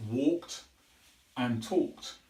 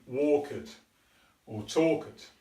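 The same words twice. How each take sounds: First: Talked said as one syllable, ending in a plain t; correct pronunciation. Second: Talked said as two syllables, talk-id, the ending stressed; the learner's mistake, an extra syllable on talked. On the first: Teacher giving the correct form after the error, one clean syllable. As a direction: say walked with no extra vowel at the end. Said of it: "the correct pronunciation is". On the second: Teacher imitating a student's error, extra stressed syllable. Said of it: "naturally want to try and stress the end". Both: Shown as a demonstration.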